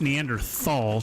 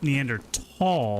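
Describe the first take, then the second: First: The middle consonant is a 'th' sound. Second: The middle consonant is a plain 't' sound. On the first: The speaker calls it wrong. "It's not pronounced Neanderthal, T H" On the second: The speaker calls it right. "It's pronounced Neanderthal, like T A L L"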